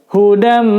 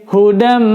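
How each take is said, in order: Both takes have the same delivery.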